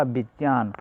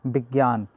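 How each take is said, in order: First: विज्ञान said as "vijnan" with the j-ny cluster; correct pronunciation. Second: विज्ञान said as "vigyan" with a g-y; common pronunciation. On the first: Teacher giving the pure linguistic pronunciation. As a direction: say विज्ञान the pure way, vij-naan. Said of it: "उच्चारण होगा क्या होगा?". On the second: Teacher showing the popular reading of विज्ञान. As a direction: say विज्ञान the everyday way, big-yaan. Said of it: "ये क्या है?". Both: Shown as a demonstration.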